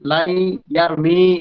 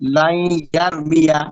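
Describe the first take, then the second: First: The verb ends without a final a vowel. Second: The verb ends with a clear final a vowel. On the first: The speaker calls it wrong. "বলা যাবে না" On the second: The speaker calls it right. "প্রকাশ্য যেটা হওয়ার কথা সেটা হয়ে গেল"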